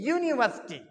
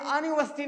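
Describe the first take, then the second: First: The word begins with a 'yoo' sound. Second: The word begins with a plain vowel sound. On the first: The speaker calls it right. "तो यू की आवाज आ रही यानी यू" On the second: The speaker calls it wrong. "आ की आवाज नहीं, यूनिवर्सिटी नहीं है"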